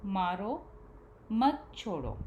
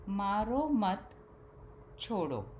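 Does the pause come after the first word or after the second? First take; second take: first word; second word. First: The pause comes after the first word. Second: The pause comes after the second word. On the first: Hit; do not let go. "दूसरे वाक्य में मारो शब्द के बाद विराम चिन्ह लगा है" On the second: Do not hit; let go. "पहले वाक्य में विराम चिन्ह मारो मत के बाद लगा है।"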